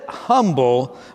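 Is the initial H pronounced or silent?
pronounced. It is said with the H pronounced.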